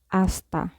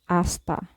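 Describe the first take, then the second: First: The word begins directly with the vowel sound. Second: The word begins directly with the vowel sound.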